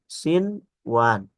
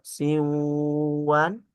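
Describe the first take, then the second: First: The n sound is pronounced clearly and distinctly. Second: The n sound is merged into the next sound. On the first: The speaker calls it right. "tetapi sinwan, baca idhar" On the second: The speaker calls it wrong. "tidak dibaca sinwan"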